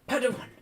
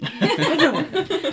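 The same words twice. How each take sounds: First: It is said in a plain, normal voice. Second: It is said in the put-on Oteg voice.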